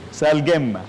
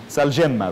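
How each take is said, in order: First: سالجمة with a hard g as in "go"; hard g pronunciation. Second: سالجمة with a soft zh-like j; soft j pronunciation. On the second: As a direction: say the ج in سالجمة like the s in "measure". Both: Shown as a demonstration. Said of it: "لغات مختلفة".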